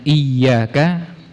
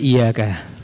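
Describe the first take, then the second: First: The y sound is held and doubled. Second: The y sound is short and single. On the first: The speaker calls it right. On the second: The speaker calls it wrong.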